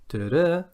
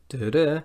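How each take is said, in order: Both takes have the same delivery.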